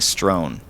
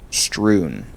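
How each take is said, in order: First: The vowel sounds like 'oh'. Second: The vowel sounds like 'oo'. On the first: The speaker calls it wrong. "I think I was saying strown" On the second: The speaker calls it right. "I feel like I've always been saying strewn"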